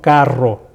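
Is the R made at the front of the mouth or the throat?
front. The R is made at the front of the mouth. This is how it is said in the south. "o R pronunciado na frente, como em espanhol"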